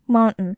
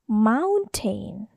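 First: It is said the American way, t swallowed. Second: It is said with a clear t sound.

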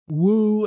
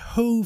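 First: The word begins without any h sound. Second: The word begins with an audible h sound. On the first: "They say woo" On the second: "They don't say who"

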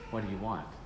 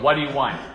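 First: The question sounds kind and welcoming. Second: The question sounds irritated and impatient. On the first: The visitor is welcome. "but the tone is, what do you want? Different, same word, different tone" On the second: The visitor is unwelcome. "Penny opened the door because she was annoyed"

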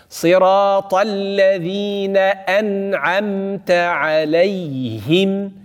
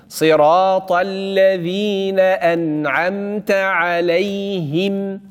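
Both takes have the same delivery.

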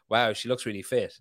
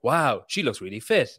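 First: It is said in a natural, casual way. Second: It is said in an overacted, odd-sounding voice.

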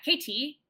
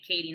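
First: The middle t is a crisp, hard t. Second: The middle t is a soft d-like flap. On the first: The speaker calls it wrong. "not KT, unless you really wanted to, you know, smash that t" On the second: The speaker calls it right. "you would say Katie"

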